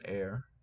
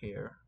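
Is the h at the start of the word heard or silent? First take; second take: silent; heard. First: The word starts with a vowel, no h sound. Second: The word starts with an audible h sound. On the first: "Maybe the H is not there" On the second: "I will just pronounce it as all hair"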